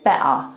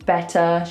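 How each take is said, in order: First: The T in the middle is dropped. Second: The T in the middle is clearly pronounced. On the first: "she would say" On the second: "instead of saying"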